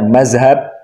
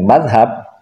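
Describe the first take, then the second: First: It is said in the absorbed Indonesian form with z. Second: It is said with the fluent Arabic-style pronunciation. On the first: The speaker is not a santri. "Tapi kalau mengucapkannya mazhab" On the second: The speaker is a santri. "Kalau fasih mengucapkannya dengan madhab"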